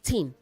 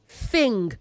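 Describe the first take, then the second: First: It starts with a t sound, like tin. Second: It starts with a th sound and ends in ng. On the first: The speaker calls it wrong. "not tin. A tin holds beverage" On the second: The speaker calls it right. "Say thing"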